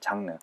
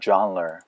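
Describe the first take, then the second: First: It is said as the Korean loanword jangreu. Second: It is said with English sounds, like zhahn-ruh. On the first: The speaker calls it wrong. "이게 장르가 아니에요" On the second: The speaker calls it right. "genre예요"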